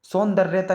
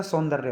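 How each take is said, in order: First: सौंदर्यता said with an extra "ta", louder; added "ta" ending. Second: Said in the usual way. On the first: Shown as a demonstration. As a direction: tack "ta" onto the end, सौंदर्यता. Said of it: "नहीं होता". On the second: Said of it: "होता है".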